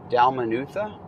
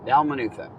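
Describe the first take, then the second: First: Dalmanutha with a questioning rise at the end; unsure Dalmanutha, left hanging upward; tentative pronunciation. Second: Dalmanutha with a falling ending; settled Dalmanutha, closed with a fall; settled pronunciation. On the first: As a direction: try out Dalmanutha, ending on an upturn. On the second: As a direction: state Dalmanutha decisively, pitch coming down. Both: Real, not acted. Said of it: "That's how I'm gonna say it".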